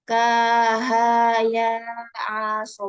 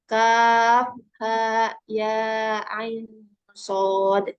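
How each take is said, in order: First: The letters are blended into running syllables. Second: Each letter is said by its full name. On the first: The speaker calls it wrong. "bukan seperti itu" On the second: The speaker calls it right. "dibaca huruf hijaiyahnya"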